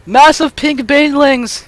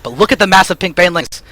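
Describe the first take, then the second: First: Drawn out, higher, thrilled; excited. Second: Said in the usual way. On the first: Shown as a demonstration. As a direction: savour each word with glee.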